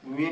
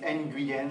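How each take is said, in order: First: The name is said as one syllable. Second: The name is stretched into two syllables. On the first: The speaker calls it right. "Nguyen is one syllable" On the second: The speaker calls it wrong. "But you guys say Nguyen"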